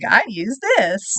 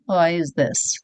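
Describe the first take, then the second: First: It is said with a smile. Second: It is said without a smile.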